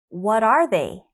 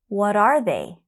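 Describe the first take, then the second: The two takes are said the same way.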